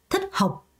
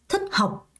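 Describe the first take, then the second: No difference in how they are said.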